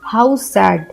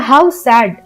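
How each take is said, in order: First: It is said in a sad, sorrowful tone. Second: It is said in a happy, cheerful tone. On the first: The speaker calls it right. "यहाँ पे हम दुख का भाव प्रकट करें तो हम बोलेंगे" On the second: The speaker calls it wrong. "हम ये नहीं बोलेंगे"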